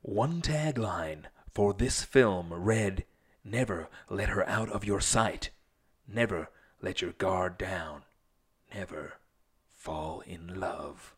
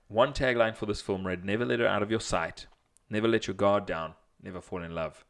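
First: Movie trailer voice. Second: Quicker, lighter trailer voice read; a lighter second trailer read; movie trailer voice. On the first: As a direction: read it like an epic movie trailer. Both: Acted. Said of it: "read the question in your movie, movie guy voice".

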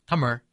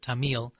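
First: Tamil as TA-mir, stressed first, r-like ending; native pronunciation. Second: Tamil as ta-MEEL, second syllable long; common mispronunciation. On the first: Showing the host how Tamil is actually pronounced, native pronunciation. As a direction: say Tamil with a short first vowel and curled final consonant. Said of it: "it's actually pronounced". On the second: Showing the host how people often mispronounce Tamil, mispronounced. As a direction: stress the end of Tamil, like "ta-MEEL". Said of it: "People will often pronounce it". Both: Shown as a demonstration.

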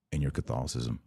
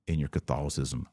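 No difference in how they are said.

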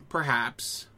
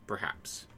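First: Said in the usual way. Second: Soft unvoiced whisper. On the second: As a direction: breathe it, barely voiced. Musing repeat, trails off.

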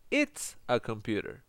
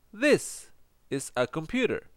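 First: Said in the usual way. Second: "This" set apart high, then a slow falling finish; stress on THIS. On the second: Shown as a demonstration. Teacher answers students about the computer, "This" emphasised. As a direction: lean on "This" to point out nearness.

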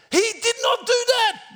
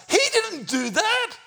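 First: DID NOT hit hard, high and loud; "not" hammered out in a high, loud voice; emphatic denial. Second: Very high-pitched emphatic denial; incredulous denial. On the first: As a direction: punch each word of "did not". Repeats the denial more emphatically. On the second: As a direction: squeal it in disbelief. Preacher rejects his mild retelling. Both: Real, not acted.

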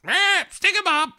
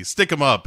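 First: Very high squeaky bear voice. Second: Said in the usual way. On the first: Retold or imitated. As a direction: squeak it out like a silly cartoon bear. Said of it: "And the bear goes". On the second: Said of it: "he does the".

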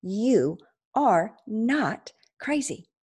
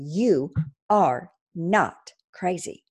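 First: Slow, with "are" pressed in "You are not crazy"; firm, slow "You are not crazy", stress on "are"; emphatic repeat. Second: Slow reassurance. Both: Shown as a demonstration. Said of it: "Let me say that again".

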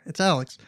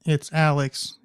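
First: Said in the usual way. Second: Put-on saying the name in a cheeky English accent. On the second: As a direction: introduce yourself like a Londoner. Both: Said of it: "in an English accent".

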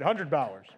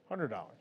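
First: Said in the usual way. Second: Soft, low repeat under the breath; hushed aside repeating the amount; quiet echo. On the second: Shown as a demonstration. Echoes the amount to himself.

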